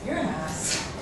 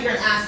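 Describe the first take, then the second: First: It is said in a light, playful tone. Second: It is said in a harsh, mean tone. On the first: It is friendly teasing. "good way. I said" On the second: It is a real insult. "I didn't say it in a mean way. I didn't say"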